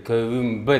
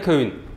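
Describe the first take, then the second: First: The word ends in an mb sound. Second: The word ends in a plain n sound. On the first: The speaker calls it right. "Кэвэ мбэ должно быть" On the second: The speaker calls it wrong. "в разговорной речи очень часто можно услышать"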